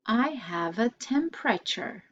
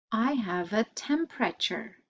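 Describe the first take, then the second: No difference in how they are said.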